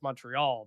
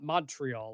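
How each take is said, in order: First: The stress falls on the final syllable. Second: The stress falls before the final syllable. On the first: This is how Canadians say it. "They emphasize at the end of the word" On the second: This is how Americans say it. "Not not Montreal like we say"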